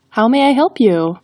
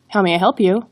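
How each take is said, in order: First: The phrase is spoken slowly. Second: The phrase is spoken quickly. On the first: The speaker calls it right. "slow it down and go with" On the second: The speaker calls it wrong. "Rather than saying"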